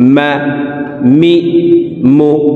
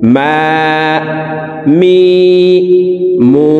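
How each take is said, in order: First: The vowels are short and said quickly. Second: The vowels are drawn out and lengthened. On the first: "তাড়াতাড়ি করে উচ্চারণ করব" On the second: "এক আলিফ টেনে পড়ব"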